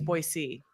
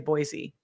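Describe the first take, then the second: First: The middle consonant is a soft s sound. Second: The middle consonant is a buzzing z sound. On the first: The speaker is from the area. The speaker calls it right. "There's no Z in Boise" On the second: The speaker is not from the area. The speaker calls it wrong. "people will know you're not from here if you say Boise"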